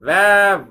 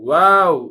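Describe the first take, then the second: First: It starts with a teeth-on-lip v sound. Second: It starts with a rounded-lip w sound. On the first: The speaker calls it wrong. "சொல்லக்கூடாது" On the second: The speaker calls it right. "பரவலா ஸ்ப்ரெட் பண்ணி சொல்லணுமே"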